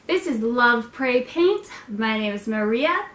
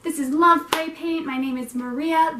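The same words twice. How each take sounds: First: Weird intro voice. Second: Broadcaster voice. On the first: Host introducing her channel in a put-on voice. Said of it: "I'm talking so weird". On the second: Host retaking her intro in broadcaster voice. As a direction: read it like a radio host. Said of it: "broadcaster voice". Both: Shown as a demonstration.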